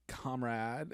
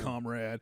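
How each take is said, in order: First: It is said in an effeminate voice. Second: It is said in a southern accent. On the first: The speaker sounds like a democratic socialist. "if you say it with like a kind of a effeminate like" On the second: The speakers sound like military buddies. "if you say it with kind of a southern accent"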